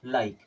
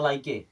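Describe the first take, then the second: First: The final e is silent. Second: The final e is sounded. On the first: The speaker calls it right. "ई हो गया silent" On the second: The speaker calls it wrong. "अगर silent नहीं होता क्या पढ़ना पड़ता? ... जो कि गलत हो जाता"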